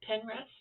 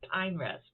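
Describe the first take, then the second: First: The first syllable sounds like 'pen'. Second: The first syllable sounds like 'pine'. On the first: The speaker calls it right. "but it's Penrest" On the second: The speaker calls it wrong. "I want to call it Pine Rest"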